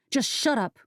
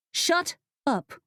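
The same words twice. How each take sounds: First: Rising angry "shut up", higher. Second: "Shut up" much higher, pitched up in fury; a sharper second "Shut up"; angry outburst. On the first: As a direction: cut him off in anger. Pepper snaps at Rufus. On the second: Pepper loses patience with Rufus, sharper anger. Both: Acted.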